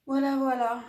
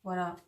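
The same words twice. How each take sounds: First: « Voilà, voilà » lancé plus fort et plus haut; voilà enjoué. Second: Said in the usual way. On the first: Real, not acted. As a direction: reprendre « voilà » avec entrain, plus fort. Conclusion répétée, voilà. (voilà joyeux, plus fort)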